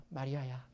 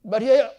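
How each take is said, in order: First: Soft, low, gentle calling of 마리아야; tender name call. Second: 마리아야 barked out much louder and higher as a rebuke; harsh scolding name call; scolding shout. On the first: A narrator's reading. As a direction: say 마리아야 softly and lovingly, dropping low. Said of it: "예수님은 다정하게 그녀의 이름을 부릅니다". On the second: Shown as a demonstration. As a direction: yell 마리아야 like an angry parent. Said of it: "마리아라고 부른 게 아니에요".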